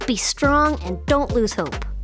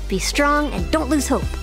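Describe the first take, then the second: First: It is said at a slow, steady pace. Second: It is said a little faster.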